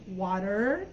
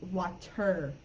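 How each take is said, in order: First: American "water" with a sounded final R; American pronunciation. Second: "water" with a crisp, fully sounded T; British-style "water", T clearly released; UK pronunciation. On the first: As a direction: tap the T in "water" like a quick D. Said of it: "In American English, water, it sounds like". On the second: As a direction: hit a true T in the middle of "water". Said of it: "in U K English, water". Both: Shown as a demonstration.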